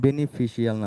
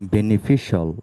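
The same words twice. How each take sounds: First: The ending is said as two syllables, 'shee-al'. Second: The ending is said as one syllable, 'shul'. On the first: The speaker calls it wrong. "বেনিফিশিয়াল না বলে" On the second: The speaker calls it right. "আমরা এখন থেকে বলবো"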